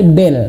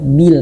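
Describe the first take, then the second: First: The vowel is an e sound. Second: The vowel is a clear i sound. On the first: The speaker calls it wrong. "Jangan sampai bel. Nah, salah banget nih" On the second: The speaker calls it right. "tarik bibirnya ke bawah, bil, karena dia kasrah"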